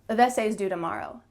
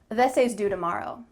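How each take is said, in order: The two takes are said the same way.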